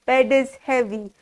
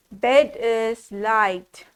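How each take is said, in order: First: Said in the usual way. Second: Slow deliberate wrong answer; drawn out, teasing wrong guess. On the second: Shown as a demonstration. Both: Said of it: "Bed, no".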